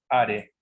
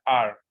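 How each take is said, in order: First: "Are" read Spanish-style as "a-re"; spelling pronunciation. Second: "Are" said as "ar", one syllable; silent E. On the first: Teacher names the written verb, "Are" as "a-re". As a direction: sound the final E in "Are". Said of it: "y cómo se pronuncia". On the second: Teacher shows the letter E is omitted, "Are" as "ar". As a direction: drop the final E of "Are". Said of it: "Se omite la letra E". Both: Shown as a demonstration.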